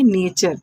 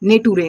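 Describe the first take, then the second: First: The middle consonant is a ch sound. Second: The middle consonant is a plain t sound. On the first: The speaker calls it right. "इसको हम पढ़ेंगे नेचर, क्योंकि टी के बाद यू R E आया है" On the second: The speaker calls it wrong. "नहीं"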